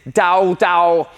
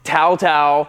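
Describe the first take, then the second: First: Each syllable sounds like 'dao' with d. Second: Each syllable sounds like 'tao' with t. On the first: "If you're Chinese, it's Dao Dao" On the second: "it's Tao Tao"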